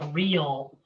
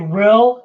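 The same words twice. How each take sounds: First: It is said with a standard accent. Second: It is said with a Pittsburgh accent.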